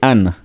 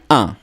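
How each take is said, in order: First: The final n sound is pronounced. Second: The final n sound is silent. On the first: The speaker calls it wrong. "Please don't say an. Don't pronounce the n" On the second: The speaker calls it right. "It's very silent"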